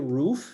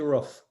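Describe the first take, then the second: First: The word is said with the standard vowel. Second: The word sounds like a dog's bark. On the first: "I would say roof in standard English" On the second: "Almost like the same sound that a dog sound"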